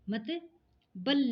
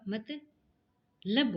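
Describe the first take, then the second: First: The second syllable is said as 'bal'. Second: The second syllable is said as 'lab'. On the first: The speaker calls it wrong. "नहीं होगा" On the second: The speaker calls it right. "होगा"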